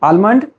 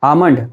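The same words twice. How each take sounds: First: An L sound is heard in the word. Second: No L sound is heard in the word. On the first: The speaker calls it wrong. "Almond is wrong pronunciation" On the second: The speaker calls it right. "The correct one is almond because L is silent"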